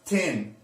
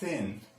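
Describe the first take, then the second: First: It begins with a hard t sound. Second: It begins with a soft th sound. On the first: The speaker calls it wrong. "it's not tin" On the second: The speaker calls it right. "it's thin"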